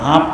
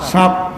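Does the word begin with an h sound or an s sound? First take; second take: h sound; s sound. First: The word begins with an h sound. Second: The word begins with an s sound. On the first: This is how people in this region say it. "হাফ কয় এদেশে" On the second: This is the usual standard form of the word. "সাপ কয়"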